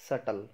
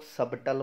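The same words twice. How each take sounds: First: 'सटल' with no B sound; correct silent B. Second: 'सबटल' with the B sounded; mispronounced subtle. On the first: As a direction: say 'सटल', dropping the B completely. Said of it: "बी silent है". ('सटल' में ब silent) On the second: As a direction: say 'सबटल', pronouncing the silent B. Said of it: "इसको लोग सबटल बोलते हैं". ('सबटल' में ब बोलकर गलत उच्चारण) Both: Shown as a demonstration.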